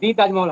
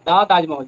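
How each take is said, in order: First: 'The' is said with a long 'dee' vowel. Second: 'The' is said with a short 'duh' vowel. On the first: The speaker calls it wrong. "দি তাজমহল হয় না" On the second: The speaker calls it right.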